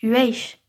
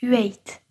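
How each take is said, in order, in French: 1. Le mot se termine par un son 'ch'. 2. Le mot se termine par un son 't'. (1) "se prononce « hueich » dans le Gard" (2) "dans les Hautes-Pyrénées, j'ai appris « hueit »"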